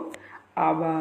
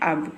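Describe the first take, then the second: First: It is pronounced the Nepali way. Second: It is pronounced the Hindi way. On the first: "Nepali में कहते हैं अब को अब, सिर्फ प्रोनाउंसिएशन का फर्क रहता है" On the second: "नेपाली में कहते हैं अब को अब, सिर्फ प्रोनाउंसिएशन का फर्क रहता है"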